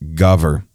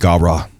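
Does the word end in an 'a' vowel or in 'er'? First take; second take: er; a vowel. First: The word ends in an 'er' sound. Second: The word ends in an 'a' vowel. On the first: This is the Hebrew pronunciation. "The Hebrew pronunciation would have been gaver" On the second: This is the Aramaic pronunciation. "In Aramaic, they would have said gavra"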